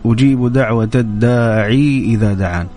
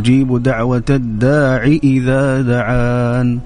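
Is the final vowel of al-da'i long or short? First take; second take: long; short. First: The vowel ending al-da'i is long. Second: The vowel ending al-da'i is short. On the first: The speaker calls it wrong. "أنت قلت" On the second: The speaker calls it right. "ليست بالياء إنما بالكسرة"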